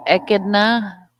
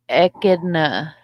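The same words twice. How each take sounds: First: Echidna said slowly and louder, ECK-ud-nuh with a falling end; second try at echidna. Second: Echidna said slowly, ECK-id-nuh, carefully sounded out; careful try at echidna. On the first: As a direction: land Echidna firmly, a bit louder, going down at the end. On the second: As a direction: spell out Echidna syllable by syllable, unsure. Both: Shown as a demonstration. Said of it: "I'll get my ac-, my Aussie accent eventually".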